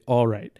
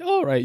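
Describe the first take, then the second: First: The voice stays steady while saying the words. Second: The voice cracks while saying the words. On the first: The speaker calls it right. "You say" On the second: The speaker calls it wrong. "You don't say"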